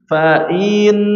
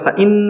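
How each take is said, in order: First: The syllable before the n is drawn out. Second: The syllable goes straight into the n. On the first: The speaker calls it wrong. "salah ya" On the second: The speaker calls it right. "harusnya fa'in langsung, in langsung masuk ke nunnya"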